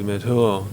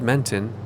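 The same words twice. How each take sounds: First: The name is said with French sounds. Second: The name is said with English sounds.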